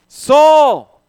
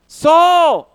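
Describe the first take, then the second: Both takes have the same delivery.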